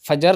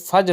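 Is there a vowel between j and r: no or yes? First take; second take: yes; no. First: A vowel is heard between j and r. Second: No vowel is heard between j and r. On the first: The speaker calls it wrong. "नहीं होता" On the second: The speaker calls it right. "होता है"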